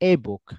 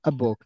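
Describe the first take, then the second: First: The article is a full 'ay' vowel sound. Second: The article is a short reduced 'uh' sound. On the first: The speaker calls it wrong. "Not এ book" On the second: The speaker calls it right. "Sound করবে হচ্ছে আ বুক"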